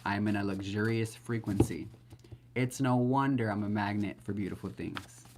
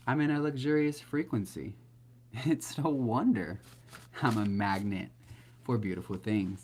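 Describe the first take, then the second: First: Said in the usual way. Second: Beaming affirmation, slowing on no wonder; heartfelt affirmation. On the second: Shown as a demonstration. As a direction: say it like a joyful talk with God. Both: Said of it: "You gotta say it like that".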